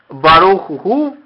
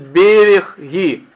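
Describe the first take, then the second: First: The second-syllable vowel sounds like u. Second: The second-syllable vowel sounds like i. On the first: This is the standard pronunciation. "в стандартном еврейском произношении" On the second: "а вы можете услышать"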